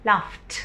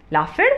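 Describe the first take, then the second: First: लाफ्ट ending in a crisp t, no extra syllable; correct pronunciation. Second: लाफिड with an extra id syllable; wrong pronunciation. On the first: Teacher giving students the right version लाफ्ट ending in t. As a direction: say लाफ्ट with a clean final t. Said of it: "इसको हम बोलेंगे". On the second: Teacher giving the wrong version लाफिड with an added id. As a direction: say लाफिड wrongly, adding id at the end. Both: Shown as a demonstration.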